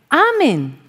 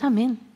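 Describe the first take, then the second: First: The stress is on the first syllable. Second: The stress is on the second syllable. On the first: Love everyone. The speaker calls it right. "El mensaje de Jesús es amén. A todos" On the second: I agree to whatever I am told. The speaker calls it wrong. "No es amén. Amén es a lo que tú me digas yo digo amén"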